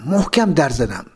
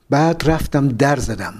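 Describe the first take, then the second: First: محکم given the weight, falling firmly; stress on محکم. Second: Said in the usual way. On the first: A narrator's reading. Narrator stressing how hard he knocked, firm stress on محکم.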